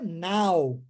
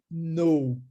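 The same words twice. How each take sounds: First: NOW with an open "ah-oo" glide; pronunciation of NOW. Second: KNOW with a rounded "oh-oo" glide; pronunciation of KNOW. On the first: Teacher contrasting first word with second, clear model NOW. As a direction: say NOW as a drawn "nau". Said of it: "e agora a segunda é know". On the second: Teacher contrasting second word with first, clear model KNOW. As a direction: say KNOW as "nou", silent k. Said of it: "A primeira é now". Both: Shown as a demonstration.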